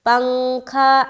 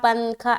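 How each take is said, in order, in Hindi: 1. न नाक की आवाज़ बनकर छिप जाता है। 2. न को जीभ से पूरा बोला जाता है। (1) "पंखा ऐसा कहते हैं ना" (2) "पंखा पंखा ऐसा तो नहीं कहते"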